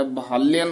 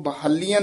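First: ਬਹਾਲਿਅਨ with a short i on ਲਿ, sihari not bihari; short i vowel. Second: ਬਹਾਲੀਅਨ said with a long ee sound before ਅਨ; wrong long vowel. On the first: Teacher gives the student the correct short i. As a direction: keep the ਲਿ in ਬਹਾਲਿਅਨ short and light. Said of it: "ਬਹਾਲਿਅਨ ਉਚਾਰਨ ਕਰਨਾ ਹੈ". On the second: Teacher shows the student the wrong long ee. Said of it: "ਇਸ ਨੂੰ ਬਹਾਲੀਅਨ ਨਹੀਂ ਕਹਿਣਾ ਹੈ". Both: Shown as a demonstration.

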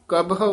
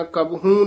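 First: ਕਬਹੁ ending in a light o; short open ending. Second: ਕਬਹੂ with a stretched nasal oo at the end; long oo misreading. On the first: Teacher correcting a pupil, ਕਬਹੁ with light o ending. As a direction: end ਕਬਹੁ on o, without long oo. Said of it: "ਕਬਹੁ ਉਚਾਰਨ ਕਰਨਾ". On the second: Teacher showing what not to say, ਕਬਹੂ ending in long oo. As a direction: draw out the final oo of ਕਬਹੂ. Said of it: "ਕਬਹੂ ਨਹੀਂ ਕਹਿ ਦੇਣਾ". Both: Shown as a demonstration.

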